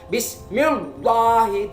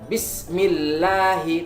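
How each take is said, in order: First: The L in Allah is thick and full. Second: The L in Allah is thin and light. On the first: The speaker calls it wrong. "Tidak boleh kita membaca" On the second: The speaker calls it right. "maka cara membacanya tipis"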